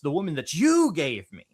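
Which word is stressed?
you. The stress is on the word you.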